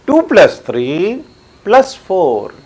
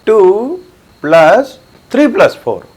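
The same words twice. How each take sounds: First: टू plus three as one group, pause, then plus four; pause after three. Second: टू held apart, then plus three plus four grouped together; pause after टू. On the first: Teacher showing where the bracket goes, pausing after three. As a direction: break before the last plus four. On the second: Teacher showing where the bracket goes, pausing after टू. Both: Shown as a demonstration. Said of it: "pause से आप बोल के बतला सकते हैं".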